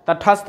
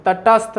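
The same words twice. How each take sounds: First: तटस्थ as "tathast", puff on the middle consonant; correct form. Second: तटस्थ as "tatast", hard unaspirated t's; wrong form. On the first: Teacher giving students the answer, तटस्थ said with aspirated "thast". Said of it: "तटस्थ होता है". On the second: Teacher rejecting a misspelling, तटस्थ said as unaspirated "tatast". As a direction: say तटस्थ as "ta-tast", no breath after the t. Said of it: "तटस्थ नहीं होता है". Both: Shown as a demonstration.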